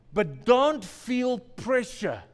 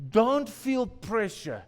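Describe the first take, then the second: First: Slow, each word pressed; pleading stress. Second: Slow, gently pressed; plea repeated. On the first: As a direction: urge them slowly. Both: Real, not acted. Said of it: "Please hear me".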